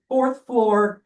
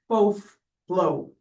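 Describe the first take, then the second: First: The R sounds are pronounced strongly. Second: The R sounds are dropped entirely. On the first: The speaker belongs to a posh neighborhood. "very somewhat harshly pronounce their uh, R's" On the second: The speaker belongs to a less posh neighborhood. "they would drop their R's"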